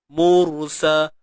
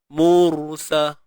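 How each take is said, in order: No difference in how they are said.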